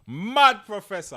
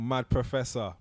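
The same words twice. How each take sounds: First: Mad Professor, high, loud and slow; hyped announcer call. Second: Said in the usual way. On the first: Shown as a demonstration. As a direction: announce it like a wrestler. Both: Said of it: "I love that".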